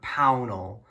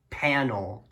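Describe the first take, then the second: First: The first syllable sounds like 'pow'. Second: The first syllable sounds like 'pan'. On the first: The speaker calls it right. "instead of Pownell" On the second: The speaker calls it wrong. "I actually thought it was like panel"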